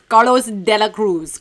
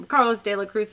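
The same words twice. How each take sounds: First: "Carlos De La Cruz" loud, with hammed-up Spanish flourish; proudly over-pronounced "Carlos De La Cruz"; showy Spanish pronunciation. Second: Said in the usual way. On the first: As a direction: relish every part of "Carlos De La Cruz". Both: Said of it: "when your real estate pronounces Carlos".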